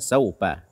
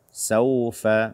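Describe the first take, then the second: First: The middle consonant sounds like a p. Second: The middle consonant is a breathy f. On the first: The speaker calls it wrong. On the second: The speaker calls it right.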